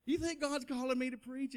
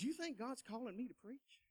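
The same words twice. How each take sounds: First: Higher, earnest asking; eager question. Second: Soft, timid asking; hushed question. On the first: Young man eagerly repeats question to preacher friend. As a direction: ask it up and out, hopeful. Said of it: "You know, I am". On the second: Young man quietly asks coworker about his calling. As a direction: ask it quietly, almost afraid. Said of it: "I told him the dream". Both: Retold or imitated.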